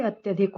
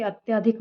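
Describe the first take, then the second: First: "अत्यधिक" with short a after ty; correct short vowel. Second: "अत्याधिक" with long aa after ty; wrong long vowel. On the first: Teacher corrects students, short-vowel "अत्यधिक". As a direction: say "अत्यधिक", keeping त्य short. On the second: Teacher shows students the mistake, long-aa "अत्याधिक". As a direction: say "अत्याधिक", stretching त्या. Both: Shown as a demonstration. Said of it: "ना होके अत्यधिक होता है".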